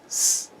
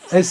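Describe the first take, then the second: First: Only a bare hiss is heard, with no vowel. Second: A vowel comes before the hiss, as in 'esse'. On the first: This is the sound the letter makes. "le bruit qu'elle fait, c'est S" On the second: This is the name of the letter. "c'est son nom, c'est le nom de la lettre"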